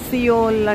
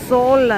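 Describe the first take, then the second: First: The name is said in two syllables, see-ol. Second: The name is said in one syllable, sole. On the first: This is how people back home usually say it. The speaker calls it wrong. "మనం ఎస్ఈఓయుఎల్ సియోల్ అంటాం కదా" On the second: This is how it is said locally. The speaker calls it right. "ఇక్కడ pronunciation అయితే సోల్ అనాలట"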